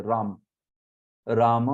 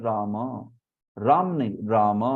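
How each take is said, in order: First: राम with a clipped final m; everyday Hindi राम; habitual Hindi Ram. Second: राम with a slightly lengthened final m; Sanskrit Ram. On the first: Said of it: "राम बोलने की आदत होती है". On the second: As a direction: let the m of राम linger a little. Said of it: "Sanskrit क्या होता है". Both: Shown as a demonstration.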